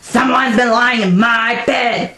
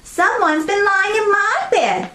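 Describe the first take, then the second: First: It is a deep, gruff, growling voice. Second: It is a medium-pitched, ordinary voice.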